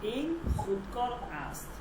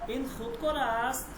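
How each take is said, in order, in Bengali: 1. বাক্যটি সাধারণ বিবৃতির মতো সমতলভাবে শেষ হয়। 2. বাক্যটি শেষে একটু টেনে উপরের দিকে ওঠে। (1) "এটা হচ্ছে সাধারণ একটা সেন্টেন্স" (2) "একটু হালকা"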